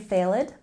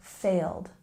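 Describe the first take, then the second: First: The ed ending is said as a separate syllable. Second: The word is said as a single syllable. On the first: The speaker calls it wrong. "we don't say failed" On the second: The speaker calls it right. "One syllable"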